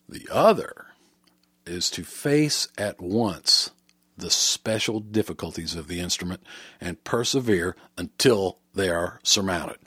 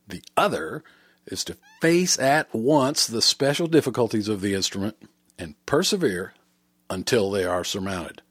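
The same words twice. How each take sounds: First: It is read more slowly. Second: It is read more quickly.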